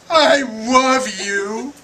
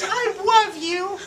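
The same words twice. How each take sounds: First: It is said in a normal voice. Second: It is said in a high-pitched voice.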